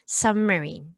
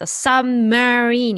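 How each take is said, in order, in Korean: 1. marine 부분은 약하게, 거의 들리지 않을 정도로 읽어요. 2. marine 부분도 강하게 읽어요. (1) "sub에 비해서 들리지 않을 정도로 약한 발음" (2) "marine에도 강세를 주는 게 아니라 세게 하는 게 아니라"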